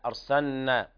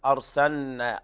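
No difference in how they are said.

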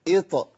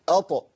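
First: Opens with i, giving the lightest t. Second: Opens with a, giving the heaviest t. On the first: "الكسره تقلل اكثر" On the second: "الفتحه تخلي فيه نسبه تفخيم تعلو"

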